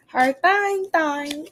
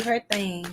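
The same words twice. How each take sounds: First: "thing" said as "thaing", higher pitched; playful drawn pronunciation. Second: Said in the usual way. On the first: Shown as a demonstration. Streamer echoing her own phrase, "thing" playfully said as "thaing". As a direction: play with "thing", opening the vowel to "thaing".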